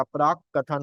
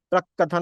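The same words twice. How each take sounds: First: प्राक said with a long aa; correct long vowel. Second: प्रक said with a short a, as the wrong form; wrong short vowel. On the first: Teacher showing students the correct प्राक with a long aa. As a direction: stretch the aa in प्राक. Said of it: "होता है". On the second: Teacher showing students the wrong form प्रक with a short a. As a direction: say प्रक with a short a, not प्राक. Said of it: "नहीं होता". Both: Shown as a demonstration.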